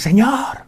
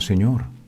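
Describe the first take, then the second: First: It is said loudly and forcefully. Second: It is said softly and calmly.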